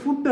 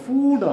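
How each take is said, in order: First: "ഫുഡ്" said with a short u, like fud; "ഫുഡ്" with short u, the wrong form. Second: "ഫൂഡ്" said with a long oo; "ഫൂഡ്" with long oo, the correct form. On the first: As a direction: clip the vowel of "ഫുഡ്" short. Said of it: "ഫൂഡ് ആണ്". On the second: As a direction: draw out the vowel of "ഫൂഡ്". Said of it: "ഇത് ഫുഡ് അല്ല". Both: Shown as a demonstration.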